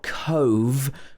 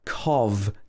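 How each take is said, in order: First: The vowel is long, as in "cove". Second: The vowel is short, as in "cov". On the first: The speaker calls it wrong. "it's not cove" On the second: The speaker calls it right. "but cov"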